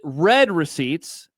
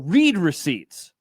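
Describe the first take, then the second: First: The word read rhymes with bed. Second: The word read rhymes with seed. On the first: "R E D" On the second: "R E E D"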